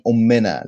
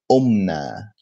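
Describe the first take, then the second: First: قمنا misread as "ummena", extra vowel after a long m; wrong Arabic pronunciation. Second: قمنا as "omna", m running straight into n; correct Arabic pronunciation. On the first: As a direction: say قمنا as three syllables, "om-MEN-na". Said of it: "This means our mother". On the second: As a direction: say قمنا in two syllables, "OM-na". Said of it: "Not قمنا". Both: Shown as a demonstration.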